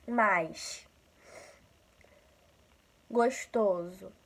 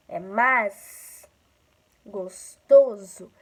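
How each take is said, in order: First: "Mais" and "Gostoso" with the S hissed like X, the carioca way; carioca S sound. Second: "É mais gostoso" with a crisp plain S, louder and slow; gaucho S sound. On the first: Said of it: "com S puxado, com S parecido com X". (S chiado carioca em "Mais. Gostoso.") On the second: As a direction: say "mais gostoso" slowly with a clean gaucho S, not shushed. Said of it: "é diferente essa pronúncia". (S gaúcho, sibilante e lento, em "É mais gostoso") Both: Shown as a demonstration.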